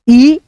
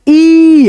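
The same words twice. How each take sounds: First: Brief ई, let go at once; a quick short ई. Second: ई held long and higher; long, raised vowel ई; drawn-out long ee. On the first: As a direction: say ई short, without stretching it. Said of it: "पढ़ते समय कम उच्चारण करते हैं". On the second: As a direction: stretch ई into a sustained "eee". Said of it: "उच्चारण खींच करके लगता है". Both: Shown as a demonstration.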